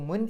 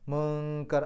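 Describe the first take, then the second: First: The n sound is pronounced clearly and fully. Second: The n sound is hidden in a nasal hum. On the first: The speaker calls it wrong. "മുൻ എന്ന് പറയില്ല" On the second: The speaker calls it right. "ആ നൂനിനെ അവ്യക്തമാക്കിയിട്ടാണ് പറയാം"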